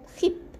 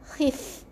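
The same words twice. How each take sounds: First: The f sound has little escaping air. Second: The f sound has clearly escaping air. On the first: The speaker calls it wrong. "Bukan khif" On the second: The speaker calls it right. "Ada huruf fa, ada angin keluar"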